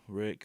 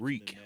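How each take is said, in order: First: The vowel is short, as in 'rick'. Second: The vowel is long, as in 'reek'. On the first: The speaker calls it wrong. "not Rick" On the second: The speaker calls it right. "it's Reek"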